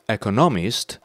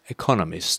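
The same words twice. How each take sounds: First: The stress is on the third syllable. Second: The stress is on the second syllable. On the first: The speaker calls it wrong. "He says economist" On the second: The speaker calls it right. "So second syllable should be stressed, not the third"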